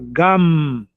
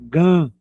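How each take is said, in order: First: The final m is closed firmly with the lips. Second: The final m is loose, lips not closed. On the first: The speaker calls it right. "junta os lábios para pronunciar gam" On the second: The speaker calls it wrong. "o brasileiro produ, pra, pronuncia de uma maneira frouxa"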